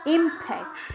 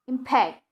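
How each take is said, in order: First: The stress is on the first syllable. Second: The stress is on the second syllable.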